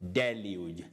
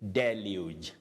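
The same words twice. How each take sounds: The two takes are said the same way.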